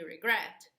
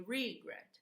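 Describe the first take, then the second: First: "regret" said ri-GRET, louder on the second syllable; teacher giving the correct stress, ri-GRET. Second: "regret" said REE-gret, first syllable stressed and long; teacher demonstrating the wrong stress, REE-gret. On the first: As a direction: punch GRET in "regret", short light "ri". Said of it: "we say regret". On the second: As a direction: put the weight on "re" in "regret", the wrong way. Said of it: "We don't say regret". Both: Shown as a demonstration.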